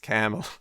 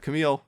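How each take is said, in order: First: The first syllable is the long, stressed one. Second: The second syllable is the long, stressed one. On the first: The speaker calls it right. "the long syllable is the first one" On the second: The speaker calls it wrong. "it's not Camille"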